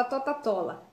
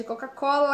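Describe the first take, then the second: First: "Tota-Tola" with T replacing the C sounds; child's Tota-Tola. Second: Said in the usual way. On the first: Shown as a demonstration. Teacher demos a child's mispronunciation of Coca-Cola. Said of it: "a criança fala Tota-Tola". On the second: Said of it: "em vez de Coca-Cola".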